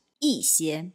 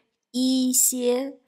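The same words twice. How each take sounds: First: 一些 said yì xiē, 一 falling sharply; the correct yì xiē with a falling 一; 一 in fourth tone. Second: 一些 said yī xiē, 一 high and level; the wrong yī xiē, level 一 held long; 一 in first tone. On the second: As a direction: hold 一 flat and high in 一些, slowly. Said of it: "En lugar de decir". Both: Shown as a demonstration.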